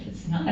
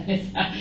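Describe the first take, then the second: First: Said in the usual way. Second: "It's not" said through a laugh. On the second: Retold or imitated. Thinking about Charles's odd text, laughing. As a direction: laugh the repeat off in disbelief.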